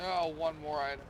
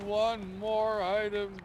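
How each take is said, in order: First: Said in the usual way. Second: "One" punched, slow, higher and louder; stress on ONE. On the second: Shown as a demonstration. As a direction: lean hard on "One", stretching "One more item". Repeats the phrase with emphasis.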